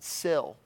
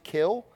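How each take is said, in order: First: The word begins with a soft s sound. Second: The word begins with a hard k sound. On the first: "or you can pronounce it sill" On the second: "you can pronounce it kill"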